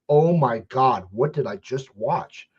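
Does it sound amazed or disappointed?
amazed. It sounds amazed and delighted.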